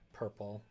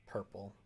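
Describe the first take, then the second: No difference in how they are said.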